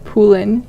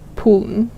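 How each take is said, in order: First: A clear vowel is said before the final n. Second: The final n follows directly with no vowel. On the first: The speaker calls it wrong. "You wouldn't say Poolin" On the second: The speaker calls it right. "you'd say Pooln"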